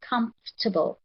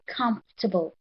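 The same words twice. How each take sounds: First: The middle 'or' syllable is silent. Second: The same.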